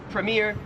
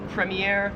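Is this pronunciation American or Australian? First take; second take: American; Australian. First: It is said with an American pronunciation. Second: It is said with an Australian pronunciation. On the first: "in American English, we would say this word as premiere" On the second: "Australian premiere"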